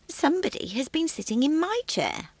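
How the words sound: It is said in a quiet, gentle voice.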